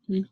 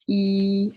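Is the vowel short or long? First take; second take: short; long. First: The vowel is short. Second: The vowel is held long. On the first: "we have short vowels" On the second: "and then long vowels"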